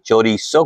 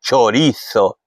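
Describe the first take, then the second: First: It is said with a Venezuelan pronunciation, z as s. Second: It is said with a Spain Spanish pronunciation. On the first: "minä venezuelalaisena sanoisin chorizo, koska me lausutaan se z niin kuin as" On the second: "Espanjan ääntäminen"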